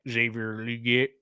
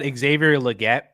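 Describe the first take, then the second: First: It is said in a drawling country accent. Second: It is said in a neutral accent.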